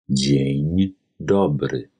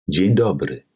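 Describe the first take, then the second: First: It is spoken slowly and carefully. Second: It is spoken at normal conversational speed. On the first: "anschließend zweimal langsam" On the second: "Einmal in normal gesprochener polnischer Geschwindigkeit"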